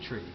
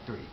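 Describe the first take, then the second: First: The word begins with a plain t sound. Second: The word begins with a th sound. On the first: "some guys say like tree instead of the number three" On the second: "I tend to say it now more like three"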